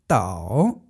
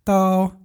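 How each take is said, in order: First: The pitch dips low, then rises. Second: The pitch stays high and level.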